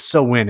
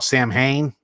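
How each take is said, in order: First: It is said as 'sow-win', two soft syllables. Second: It is said as 'sam-hane', spelling-based. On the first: The speaker calls it right. "but it's it's So Win. It's pronounced" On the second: The speaker calls it wrong. "many people mispronounce that. They call it Sam Hain"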